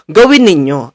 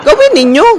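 First: "Gawin ninyo" lower with a firm falling end; "Gawin ninyo" low and final; firm, settled. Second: "Gawin ninyo" flung out much higher with a rising end; "Gawin ninyo" as a high rising challenge; demanding call. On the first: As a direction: drop down and state "Gawin ninyo" flatly. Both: Real, not acted. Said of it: "Gawin ninyo. (repeated)".

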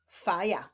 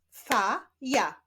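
First: Said in the usual way. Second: "Fa, ja" as two separate syllables, pause between. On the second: Shown as a demonstration. Teacher leading a reading drill, "Fa, ja" split apart. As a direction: say "Fa", wait, then "ja". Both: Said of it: "łączenia ich w wyrazy".

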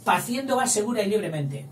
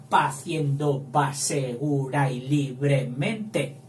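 First: Said in the usual way. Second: "Paciendo va segura y libremente" slowed to count syllables; slow verse counting; slow scansion. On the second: Shown as a demonstration. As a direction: read it slowly to count. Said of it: "Sin alefa también".

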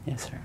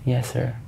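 First: A hushed, breathless yes sir; whispered yes. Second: Said in the usual way. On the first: Real, not acted. Witness whispering his answer to the judge. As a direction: whisper the answer, barely there. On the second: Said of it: "I'm sorry?".

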